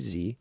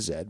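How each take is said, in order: First: The letter is said the American way. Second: The letter is said the non-American way.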